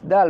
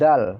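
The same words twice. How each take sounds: First: The d is made thin and light. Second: The d is pressed hard. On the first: The speaker calls it right. "Tipis dal" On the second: The speaker calls it wrong. "bukan dal"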